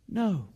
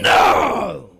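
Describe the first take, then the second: First: It is said gently and softly. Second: It is said harshly and sharply.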